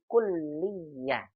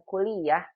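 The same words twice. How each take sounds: First: The L sound is held and doubled. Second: The L sound is short and single. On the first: The speaker calls it right. "dibaca dengan dua tasydid" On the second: The speaker calls it wrong. "bukan kuliah"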